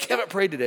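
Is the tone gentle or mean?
mean. It is said in a mean, harsh tone.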